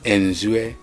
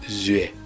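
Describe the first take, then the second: First: An n sound comes before the name. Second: The name starts directly, without an n sound. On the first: This is how outsiders rendered the name. The speaker calls it wrong. "el colono siempre anteponía a ciertos apellidos como el Zue, anteponía la N" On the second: This is the name in the native language. The speaker calls it right. "En fan es zue, ... sin que la N que se añadía sonase para nada"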